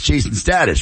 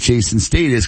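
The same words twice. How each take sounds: First: It is said in an American accent. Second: It is said in a British accent.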